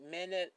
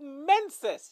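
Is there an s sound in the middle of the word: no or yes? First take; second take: no; yes. First: The word is said without the middle s sound. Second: The word is said with the middle s sound. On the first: The speaker calls it wrong. "I know I'm pronouncing that not quite right" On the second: The speaker calls it right. "Just think Mensis. There we go"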